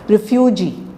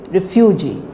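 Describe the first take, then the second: No difference in how they are said.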